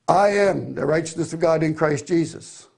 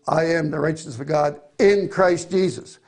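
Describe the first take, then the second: First: It sounds smug, as if they have arrived. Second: It sounds earnest, stressing being in Christ Jesus.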